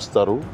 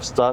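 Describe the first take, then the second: First: The word ends with an added vowel. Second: The word ends on a consonant sound. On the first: "Sessiz harfle bitenleri hep sesli harfle" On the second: "Star diyemiyor"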